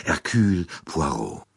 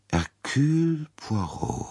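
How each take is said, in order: First: Said in the usual way. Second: Slow, higher, musing repetition of the name; slow recognition. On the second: Acted. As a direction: let the name sink in slowly. Princess repeats the name. (langsam und nachdenklich, höher)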